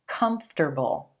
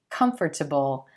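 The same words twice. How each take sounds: First: The word is said with just three syllables. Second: The word is said with more than three syllables. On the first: The speaker calls it right. "we just make it three syllables" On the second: The speaker calls it wrong. "I know it looks like it should be comfortable"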